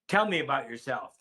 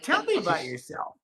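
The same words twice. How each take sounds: First: It is said at a lower, flat pitch. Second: It is said with a raised vocal pitch. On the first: It sounds like an order. The speaker calls it wrong. "That is a command" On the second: It sounds like a friendly invitation. The speaker calls it right. "raise your vocal pitch"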